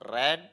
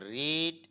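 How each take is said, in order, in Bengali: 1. স্বরধ্বনিটি একটি হ্রস্ব 'e' উচ্চারণ। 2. স্বরধ্বনিটি একটি দীর্ঘ 'ee' উচ্চারণ। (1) "ভি টু এবং ভি থ্রি এর উচ্চারণ হবে রেড" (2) "ভি ওয়ানের উচ্চারণ হবে রিড"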